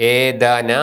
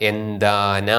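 First: ഏതാന with a long first vowel; wrong reading. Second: എന്താന with short എ and nasal; correct reading. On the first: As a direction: stretch ഏ in ഏതാന. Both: Shown as a demonstration. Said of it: "അല്ല".

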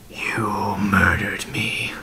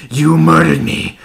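First: Slow, breathy whisper; drawn-out whisper from a dead man; whispered accusation. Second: High, loud outburst of rage; screamed accusation. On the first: Acted. Dead man confronting his killer, slow whispered accusation. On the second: A narrator's reading. Dead man screaming at the man who killed him, enraged. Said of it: "and he screamed".

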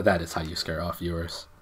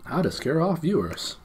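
First: Said in the usual way. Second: High, mock-dramatic title read; mock announcement. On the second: Shown as a demonstration. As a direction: announce it like a cheesy video title.

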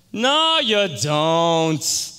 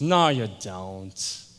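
First: Very slow, loud, high drawn-out disbelief; emphatic denial. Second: Low, slow, drawn-out disbelief; sceptical denial. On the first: Harry flatly refuses to believe Tony, loud drawn-out denial. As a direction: belt it out, stretching every word. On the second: Harry doubts Tony's church, slow low denial. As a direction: stretch out each word, pitched low. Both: Retold or imitated.

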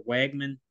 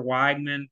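First: Wegman with first syllable like "weg"; short-e pronunciation. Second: Weigman with first syllable like "wige"; long-i pronunciation. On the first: Co-host offering other name, Wegman with short e. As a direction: say Wegman with an "eh" vowel. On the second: Co-host unsure of quarterback's name, Weigman with long i. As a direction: say Weigman with an "eye" vowel. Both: Shown as a demonstration. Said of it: "confused on his pronunciation".

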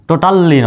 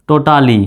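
First: টোটালি with a long held l, "total-li"; doubled l, "totalli"; wrong double-l pronunciation. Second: টোটালি with one light l, "to-ta-li"; smooth "totali", single short l; single-l pronunciation. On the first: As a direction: linger on the l in টোটালি. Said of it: "টোটালি নয়". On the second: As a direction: say টোটালি without holding the l. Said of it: "একটা এল উচ্চারিত হবে". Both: Shown as a demonstration.

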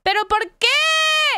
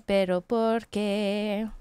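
First: High-pitched cry of comic despair; melodramatic wail. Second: Low, slow lament; sadness. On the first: Scene: streamer lamenting a broken game, high hammed-up wail. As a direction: wail it like a tragedy. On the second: Scene: streamer lamenting a broken game, slow sad question. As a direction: ask it slowly, sinking into dejection. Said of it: "The sadness is real". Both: Pretend.

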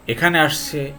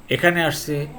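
No difference in how they are said.

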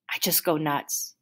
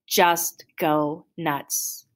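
First: Said in the usual way. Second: JUST GO NUTS stretched out slowly, word by word; slow, weighty "Just go nuts"; drawn-out emphasis. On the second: A narrator's reading. Narrator repeats phrase for emphasis.

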